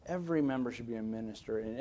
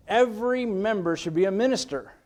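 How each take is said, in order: First: Soft, lower-pitched repeat; quiet restatement. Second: Raised, higher-pitched preaching; emphatic declaration. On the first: Preacher repeats his belief to the church, softly. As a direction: bring it right down and let it settle. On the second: Preacher declares his heartfelt belief to the church, emphatic. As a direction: proclaim it as a firm conviction. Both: Real, not acted.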